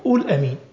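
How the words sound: The verb is said in colloquial Egyptian form. The speaker calls it wrong. "قول دي بلغة أهل مصر الدارجة"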